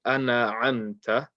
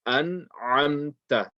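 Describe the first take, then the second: First: "ana amta" with a vowel added after the n; slow "ana amta", n opened into "na"; sakin turned into fatha. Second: Slow "an amta", n closed with no vowel; correct sakin. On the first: Teacher warns what not to say, added fatha. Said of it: "If you turn the sakin into a fatha". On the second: Teacher gives the right reading, n with sakin. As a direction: stop on the n of "an", then throat ain on "amta". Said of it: "You have to say". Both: Shown as a demonstration.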